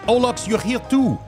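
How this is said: It is read in a put-on French accent. The speaker calls it right.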